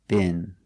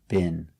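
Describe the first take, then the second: First: It has a short I vowel, American style. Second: The same.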